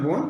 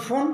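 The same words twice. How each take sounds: First: বোন said straight, with no extra stress; straight pronunciation. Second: ফোন with force on the o; stressed vowel. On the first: Teacher contrasts bone with phone, straight বোন. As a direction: leave the o of বোন unpressed. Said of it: "সোজাসুজি উচ্চারণ". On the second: Teacher explains the final e, stress on ফোন. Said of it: "stress পড়ে". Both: Shown as a demonstration.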